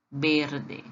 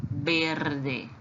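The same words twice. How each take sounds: First: "verde" repeated; Spanish repeat. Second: "verde" with a Spanish b sound; Spanish pronunciation. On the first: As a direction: echo "verde". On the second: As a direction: model "verde". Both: Shown as a demonstration. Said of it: "O verde em espanhol se diz assim".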